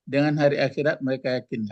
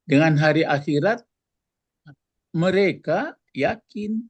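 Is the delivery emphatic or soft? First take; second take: soft; emphatic. First: It is said softly without firm stress. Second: It is said firmly with emphatic stress. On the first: The speaker calls it wrong. "kan lunak" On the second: The speaker calls it right. "gitu kan"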